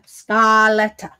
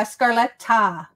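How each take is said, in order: First: Scaletta said slowly with an open ah and no R, ska-LET-ta; corrected name. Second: Scarletta said with a clear R, skar-LET-ta; wrong spelling-out. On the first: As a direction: Scaletta drawn out carefully, no R at all. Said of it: "the way I'm saying ah, it sounds like R". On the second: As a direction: Scarletta with the R sounded before the L. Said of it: "Scarletta with an A". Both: Shown as a demonstration.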